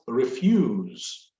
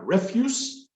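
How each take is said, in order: First: The s sound is voiced, like z. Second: The s sound is voiceless, like s. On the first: "the voiced refuse" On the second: "S, non-voiced"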